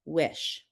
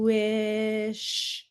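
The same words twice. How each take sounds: First: Said in the usual way. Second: Slow stretched "Wish" with each sound held; stretched blending. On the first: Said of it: "Now I'm gonna read it". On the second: Shown as a demonstration. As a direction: say "Wish" slowly, holding every sound. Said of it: "I'm going to blend the sounds slowly".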